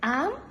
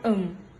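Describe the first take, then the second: First: The word is said with its full vowel. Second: The word is said with a reduced vowel. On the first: "for strong form" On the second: "for weak form"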